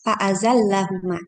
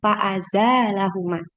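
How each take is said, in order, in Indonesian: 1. Vokal pendek setelah z, l ganda. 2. Vokal panjang setelah z, l tunggal dan ringan. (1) "bihadfil alif ba'da zai wa tasydidil lam" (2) "bi'ithbatil alif alif ba'da zai wa takhfiful lam"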